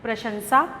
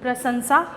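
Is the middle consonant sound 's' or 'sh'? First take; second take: sh; s. First: The middle consonant is an 'sh' sound. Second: The middle consonant is a plain 's' sound. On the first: The speaker calls it right. "इसका सही उच्चारण है" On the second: The speaker calls it wrong. "लोग प्रशंसा बोलते हैं ... ये गलत उच्चारण है"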